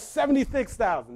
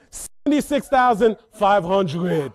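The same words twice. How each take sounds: First: Said in the usual way. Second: Put-on slow, loud bid in Haitian accent; calm, accented bid. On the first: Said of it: "She says". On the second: Mom raises by five hundred, deliberate Haitian-accented bid. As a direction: imitate mom's Haitian accent, stretching the number. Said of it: "calm, collect".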